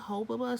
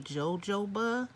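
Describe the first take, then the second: First: The word begins with an H sound. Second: The word begins with a J sound. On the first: "I heard some people say hob hobaba hobaba" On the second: "Some people say jojoba"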